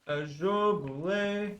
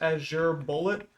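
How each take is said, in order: First: The second word is said like 'boolay'. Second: The second word is said like 'bullet'. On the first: "however the fuck you say it" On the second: "I always thought that it was Azure Bullet, but I was told that I was wrong"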